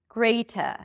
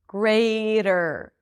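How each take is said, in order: First: A clear T sound and no final R. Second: A flapped D sound and a final R. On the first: "British speakers do pronounce it as a T" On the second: "you pronounce the T as a flap D"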